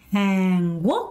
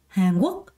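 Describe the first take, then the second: First: Both syllables get equal stress. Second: The second syllable is stressed, the first light. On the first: The speaker calls it wrong. "이렇게 발음하는 사람 없고요" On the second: The speaker calls it right. "이렇게 발음해요"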